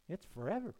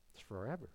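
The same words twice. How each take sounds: First: Said in the usual way. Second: Low, soft and grave; quiet, lowered echo of a warning; hushed repeat. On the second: Real, not acted. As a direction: drop right down and let it sink in. Softer repeat letting it sink in.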